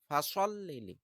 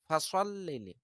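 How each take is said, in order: No difference in how they are said.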